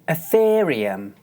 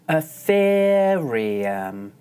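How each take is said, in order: First: The word is said at normal speed. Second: The word is said very slowly.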